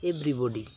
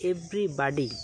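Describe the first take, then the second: First: Everybody the British way, ev-ri-bo-dee, lower pitch; British pronunciation. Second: Everybody with American vowels, ev-ri-bah-dee; American pronunciation. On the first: Teacher shows the British way to say everybody. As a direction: say everybody the British way, rounded middle vowel. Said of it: "British উচ্চারণ হচ্ছে". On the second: Teacher shows the American way to say everybody. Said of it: "American উচ্চারণ হচ্ছে". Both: Shown as a demonstration.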